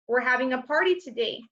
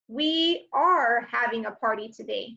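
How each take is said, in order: First: Said in the usual way. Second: "are" stressed and spelled out. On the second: Shown as a demonstration. Teacher showing the long form with "are" stressed. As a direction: lean on the word "are".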